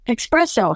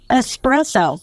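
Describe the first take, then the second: First: It begins with an x sound, like expresso. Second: It begins with a plain s sound, no x. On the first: The speaker calls it wrong. "I didn't know that espresso was not that isn't how you pronounce it. There's no X" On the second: The speaker calls it right. "it's espresso"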